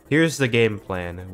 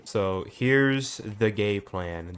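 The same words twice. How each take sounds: First: "game plan" with the m said clearly, slower; "game plan" fixed, carefully said; corrected. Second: "gay plan" with a clear g and no m, slow; "gay plan" blurted instead of game plan; slip of the tongue. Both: Real, not acted. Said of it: "Did I say gay plan?".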